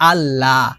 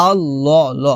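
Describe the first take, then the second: First: "আল্লাহ" as allaa, with open plain a; wrong thin L. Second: "আল্লাহ" as allaw, dark and rounded; heavy rounded L. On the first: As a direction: end "আল্লাহ" on a light "laa". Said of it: "আল্লাহ বলা যাবে না". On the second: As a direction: round the second syllable of "আল্লাহ" to "law". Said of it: "বলতে হবে". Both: Shown as a demonstration.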